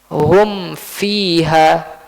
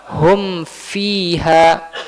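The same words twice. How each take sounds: First: The m is pronounced clearly with lips closed. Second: The m is pronounced clearly with lips closed.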